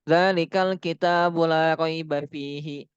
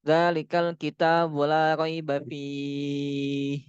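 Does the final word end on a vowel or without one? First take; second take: vowel; no vowel. First: It stops with the final vowel still pronounced. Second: It stops with the final vowel dropped. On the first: The speaker calls it wrong. "harokatnya masih dibaca" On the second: The speaker calls it right. "Yang benar itu gini"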